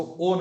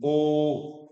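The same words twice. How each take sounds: First: "ओ" said short; wrongly shortened vowel. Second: "ओ" held long; long vowel. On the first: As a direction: cut "ओ" off too soon. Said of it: "इसको ओ नहीं". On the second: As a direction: stretch "ओ" out fully. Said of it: "ये दीर्घ ही होता है". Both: Shown as a demonstration.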